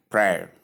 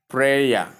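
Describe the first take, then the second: First: Prayer as one syllable, PRAIR; prayer with no "ya" ending; correct pronunciation. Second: Prayer in two syllables, PRAY-ya; prayer with a separate "ya" ending; wrong pronunciation. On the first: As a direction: say prayer simply, rhyming with air. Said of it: "It is simply called prayer". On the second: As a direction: demonstrate the mistaken prayer, pray-ya. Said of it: "So not prayer". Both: Shown as a demonstration.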